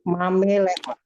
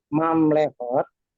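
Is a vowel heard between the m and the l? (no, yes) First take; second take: yes; no. First: A short vowel separates the m and the l. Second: The m and l run together without a vowel. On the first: "kalau kita eja satu persatu mamelehot" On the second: "Tadi ada slide yang bunyinya mamlehot"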